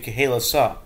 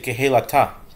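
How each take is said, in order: First: The last consonant is an s sound. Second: The last consonant is a t sound.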